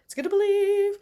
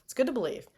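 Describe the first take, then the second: First: High cheer. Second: Said in the usual way. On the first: Shown as a demonstration. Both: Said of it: "believe in yourself".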